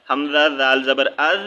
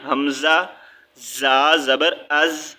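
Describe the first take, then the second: First: از with the ذ of زال said softly; soft letter. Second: از with the ز of زا said firmly, slowly; hard letter. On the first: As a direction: let از end on a soft, light ذ. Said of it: "نرمی سے نکالی تھی". (از میں ذ کو نرمی سے ادا کریں) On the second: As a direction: press the ز of از hard and buzzing. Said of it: "اس کو ہم نے سختی سے ریڈ کرنا ہے". (از میں ز کو سختی سے ادا کریں) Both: Shown as a demonstration.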